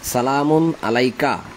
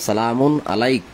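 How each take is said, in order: First: The phrase ends with a short vowel sound. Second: The phrase ends on a bare consonant. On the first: The recitation continues without stopping. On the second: The reciter stops at this point.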